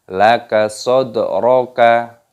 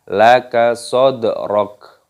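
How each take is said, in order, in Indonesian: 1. Kata terakhir berakhir dengan vokal pendek. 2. Kata terakhir berakhir dengan konsonan. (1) "jangan dibaca laka sodroka, salah" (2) "tapi laka sodrok"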